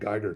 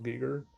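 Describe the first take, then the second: First: The name is said in an English-style way. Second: The name is said in a German-style way. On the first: "I've been saying Geiger too long" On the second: "maybe the German way of saying it"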